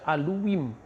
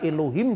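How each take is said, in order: First: The h sound in the middle is not heard. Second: The h sound in the middle is clearly pronounced. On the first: This is the Samaritan reading.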